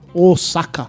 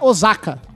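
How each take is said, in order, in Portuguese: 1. A consoante do meio é um som de s sibilante. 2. A consoante do meio é um som de z vibrado. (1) "e sim Osaka" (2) "não se pronuncia Osaka. ... Com som de Z"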